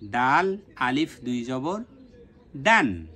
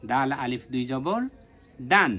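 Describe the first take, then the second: First: দাল আলিফ দুই জবর spelled slowly, দান rung out; slow spelling. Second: Quicker spelling. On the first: Teacher spells the third letter slowly for students. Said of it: "তৃতীয়টা আমরা উচ্চারণ করব". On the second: Teacher repeats the spelling at normal speed for students. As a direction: run through it quicker. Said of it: "তাড়াতাড়িভাবে উচ্চারণ করব". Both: Shown as a demonstration.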